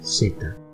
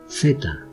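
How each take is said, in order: First: The first consonant sounds like English s. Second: The first consonant sounds like English th. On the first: "twice with a Latin American accent" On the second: "twice with a Spanish accent"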